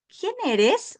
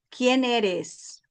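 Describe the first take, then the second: First: The pitch changes like a question. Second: The pitch stays flat like a statement. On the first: It is asked as a question. The speaker calls it right. "Decliné mi voz" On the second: It sounds like a statement. The speaker calls it wrong. "si no declino mi voz"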